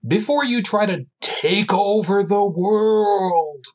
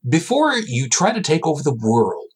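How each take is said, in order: First: Slow, higher, grand announcer read; dramatic announcer. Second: Said in the usual way. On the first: Shown as a demonstration. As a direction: intone it like a movie trailer. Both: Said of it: "Oh, crap, I should really do this".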